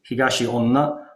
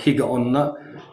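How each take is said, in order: First: The name is said with the longer middle part, higashi. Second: The name is said with the shorter middle part, higa. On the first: "you can read it Higashi onna" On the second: "or Higa onna"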